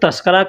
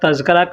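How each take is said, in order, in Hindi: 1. इसे 'tasqara' कहा जाता है, 's' की आवाज़ के साथ। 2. इसे 'tazkira' कहा जाता है, 'z' की आवाज़ के साथ। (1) "लोग तस्करा कहते हैं" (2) "तज़किरा कहें"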